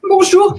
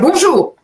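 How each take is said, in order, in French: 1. La salutation sonne triste. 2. La salutation sonne en colère. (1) "je suis triste" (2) "je suis en colère"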